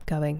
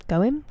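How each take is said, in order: First: Said in the usual way. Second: "Going?" higher, with rising pitch; questioning. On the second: Real, not acted. Streamer double-checking a word just read out, questioning.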